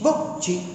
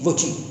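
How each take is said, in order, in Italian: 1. È detta con un accento italiano semplice. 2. È detta con un accento francese. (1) "Che dici voci" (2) "come direbbe un francese"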